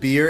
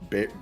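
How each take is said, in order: First: The vowel sounds like the one in 'beer'. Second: The vowel sounds like the one in 'bear'. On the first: "the term I said beer" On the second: "it might be bear, like B E A R"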